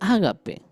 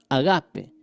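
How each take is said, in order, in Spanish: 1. El acento no está en la sílaba ga. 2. El acento está en la sílaba ga.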